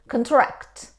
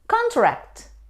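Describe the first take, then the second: First: The stress is on the second syllable. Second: The stress is on the first syllable. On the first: To decrease in size. "when we stress on the second syllable, we say contract" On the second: A formal agreement. "It's a noun, means a formal agreement"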